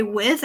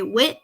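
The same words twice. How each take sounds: First: Said in the usual way. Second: "wit" with a hard t, no th sound; country accent. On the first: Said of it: "I don't say with". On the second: Shown as a demonstration. Southern gamer explaining her accent, "wit" ending in t. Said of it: "I say wit".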